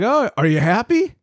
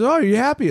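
First: High, sing-song mock of the boss. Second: High sing-song "Oh, are you happy?"; mocking boss voice. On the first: Retelling the boss asking if he's happy, high mock voice. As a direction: mimic his chirpy question. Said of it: "He's like". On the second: Boss repeats the question, high mock voice. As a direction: ape his chirpy question again. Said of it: "He says".

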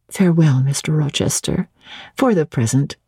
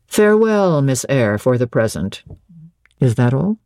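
First: Said in the usual way. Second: Rochester. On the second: Acted. Master repeating Jane's farewell, voice falling low. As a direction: echo it as the master, pitch dropping away.

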